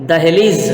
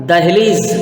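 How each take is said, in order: Both takes have the same delivery.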